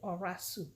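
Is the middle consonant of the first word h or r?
r. The middle sound is r, as others say it.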